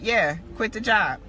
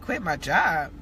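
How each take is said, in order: First: Matter-of-fact answer, lightly voiced; retold confirmation. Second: Low, incredulous echo of an order; retold disbelief. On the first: God confirming the order to quit, matter-of-fact retold reply. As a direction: confirm it simply, as a settled instruction. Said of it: "it was just like". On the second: Believer answering God's order to quit, retold disbelief. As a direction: question it in mock disbelief, pitched down. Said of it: "And I'm like".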